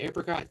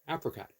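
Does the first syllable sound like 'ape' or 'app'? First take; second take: ape; app. First: The first syllable sounds like 'ape'. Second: The first syllable sounds like 'app'. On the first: "does that imply that you somehow have gotten it from an ape?"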